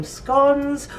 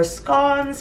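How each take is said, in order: First: "scones" with a long o, rhyming with stones. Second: "scones" with a short o, rhyming with gone. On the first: Explaining two pronunciations, she says "scones" rhyming with stones. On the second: Offering the other pronunciation, she says "scones" rhyming with gone. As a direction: say "scones" as skonz, like gone, a bit higher. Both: Shown as a demonstration. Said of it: "potato, potato, whichever way you want to say it".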